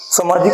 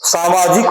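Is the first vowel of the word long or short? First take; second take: short; long. First: The first vowel is short, like plain samaj. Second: The first vowel is long, as in saa. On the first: The speaker calls it wrong. "सामाजिक नहीं होता, समाज में इक लगा देते हैं।" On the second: The speaker calls it right. "सामाजिक होता है।"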